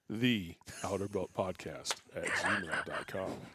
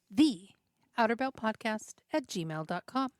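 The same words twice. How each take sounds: First: It is said in a very deep, masculine voice. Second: It is said in a normal voice.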